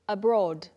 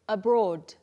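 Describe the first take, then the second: Both takes have the same delivery.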